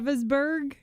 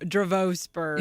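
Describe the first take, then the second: First: The second vowel is short and weak. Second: The second vowel is a long O. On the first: "You said Dravisburg" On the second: "Yes, long O"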